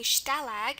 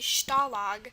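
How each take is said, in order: First: The A is said with a non-ah vowel. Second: The A is said as an open ah sound. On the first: The speaker calls it wrong. "instead of this being Stalag" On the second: The speaker calls it right. "it's going to be Stalag"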